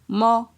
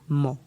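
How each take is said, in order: First: The syllable has a mid tone. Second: The syllable has a low tone. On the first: "Ton moyen" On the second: "ton bas"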